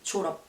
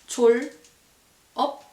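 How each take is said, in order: First: The final consonant carries over into the next syllable. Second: The syllables are said apart, the final consonant unlinked. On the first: "as one word, we just say" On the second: "Same for this one"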